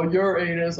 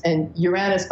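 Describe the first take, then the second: First: Uranus said as "your anus"; Uranus stretched into "yer-AY-nus"; joking mispronunciation. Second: Said in the usual way. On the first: Retold or imitated. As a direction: imitate people saying Uranus like your anus, for the joke. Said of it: "people go". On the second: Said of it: "we're used to saying that name".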